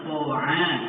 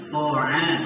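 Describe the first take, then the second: First: The first consonant sounds thick and heavy. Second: The same.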